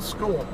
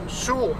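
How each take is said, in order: First: The word begins with an sk sound. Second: The word begins with an sh sound. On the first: It is the usual American way. "not school" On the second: It follows the rules of the locals. "you should be pronouncing school shul"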